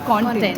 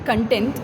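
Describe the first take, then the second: First: The stress is on the first syllable. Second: The stress is on the second syllable. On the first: It means the material being presented. The speaker calls it right. "what I meant was actually content" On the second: It means a feeling of happiness. The speaker calls it wrong. "earlier I used to say content, which is happiness"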